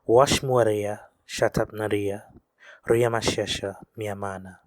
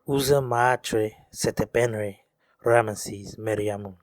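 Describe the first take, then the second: First: The name is said with reconstructed vowels, as Riamashesha. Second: The name is said with modern vowels, as Ramesses. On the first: This is how the name was originally vocalized. The speaker calls it right. "the actual way this name would have been vocalized" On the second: This is the commonly heard form. The speaker calls it wrong. "you've probably heard it pronounced in this way"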